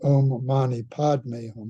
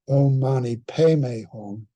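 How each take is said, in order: First: The mantra is said with Sanskrit pronunciation. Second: The mantra is said with Tibetan pronunciation. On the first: "instead of" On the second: "that's the way Tibetans tend to pronounce P A D M E"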